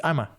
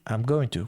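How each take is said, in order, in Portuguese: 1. Going to é reduzido a uma única vogal. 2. I am é contraído; going to é dito por completo. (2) "quando você abrevia"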